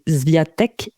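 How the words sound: The name is said with French pronunciation. "si on prononce à la française"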